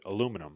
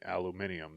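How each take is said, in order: First: The word ends with a -num sound. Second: The word ends with a -nium sound. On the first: This is how it is said in America. "In America, we pronounce it aluminum" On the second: This follows the spelling with an I after the M. "but it is actually aluminium"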